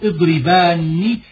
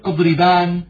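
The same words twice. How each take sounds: First: The final n is doubled, followed by i. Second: The final n is short and light. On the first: The speaker calls it right. "فتقول اضربان بنون مشددة مكسورة" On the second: The speaker calls it wrong. "فلا تقول اضربان بنون مخففة"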